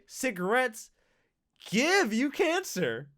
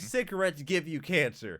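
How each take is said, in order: First: It is said in an upbeat, cheerful tone. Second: It is said in a gloomy, doom-laden tone. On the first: Cancer is a gift being given. "it's a gift. They're giving it to you" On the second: Smoking is harmful and frightening. "you could say it like that, all gloom and doom like"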